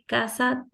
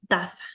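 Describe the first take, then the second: First: The word begins with a K sound. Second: The word begins with a T sound. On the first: The speaker calls it right. "en vez de decir casa" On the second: The speaker calls it wrong. "te dicen taza"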